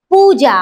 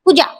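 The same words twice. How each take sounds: First: पूजा with the ū held long; drawn-out first syllable in पूजा; long vowel. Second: पूजा with a short, quick ū; wrong short-vowel पूजा. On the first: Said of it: "दीर्घ". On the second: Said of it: "काही पूजा नावाच्या पोरी तर असलं लिहितेत". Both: Shown as a demonstration.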